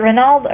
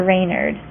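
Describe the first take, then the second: First: "Renald" ending in -nald, with an L; alternative pronunciation. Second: "Reynard" as RAY-nerd, with an R; alternative pronunciation. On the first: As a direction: try "Renald" as REN-ald. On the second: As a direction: try "Reynard" opening on "ray". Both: Shown as a demonstration. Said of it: "I don't know how it's pronounced".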